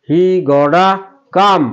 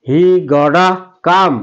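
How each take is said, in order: No difference in how they are said.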